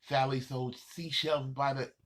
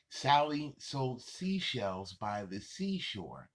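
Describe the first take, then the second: First: Fast and tripping. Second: Slow, even demo of the tongue twister; slow and careful. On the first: A kid showing how it goes wrong when fast. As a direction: rush it so the words slip. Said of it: "when you try to say it fast". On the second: A kid showing how it sounds said slow. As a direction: say each word deliberately and slowly. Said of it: "it sounds okay when you say it slow". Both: Shown as a demonstration.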